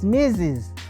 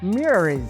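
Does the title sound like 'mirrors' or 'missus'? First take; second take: missus; mirrors. First: The title is said like the word 'missus'. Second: The title is said like the word 'mirrors'. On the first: The speaker calls it right. "It's Missus" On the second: The speaker calls it wrong. "we were pronounced as mirrors"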